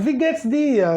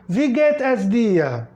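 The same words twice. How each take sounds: First: Wie geht's dir run together at everyday speed; natural-speed greeting. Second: Wie geht es dir said slowly, each word spaced apart; slow teacher demo. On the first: Teacher giving the everyday contracted form, natural pace. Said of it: "você tá ouvindo a palavra". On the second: Teacher modeling the greeting for students, slow and deliberate. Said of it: "o professor diz". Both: Shown as a demonstration.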